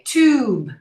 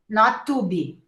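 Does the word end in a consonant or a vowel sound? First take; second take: consonant; vowel. First: It ends on the final b consonant. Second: It ends with an added vowel sound. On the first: The speaker calls it right. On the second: The speaker calls it wrong.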